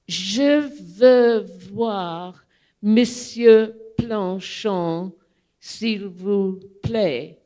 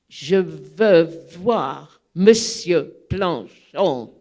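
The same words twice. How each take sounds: First: Slow, deliberate schoolbook French; slow, careful French read off a note; careful French request. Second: Slower and louder, firmly insisting; slow, louder, stubborn French demand; insistent repeat. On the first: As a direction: spell out each word of a rehearsed line. First careful request to doorman. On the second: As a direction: plant your feet and insist. Insisting again after refusal. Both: Retold or imitated.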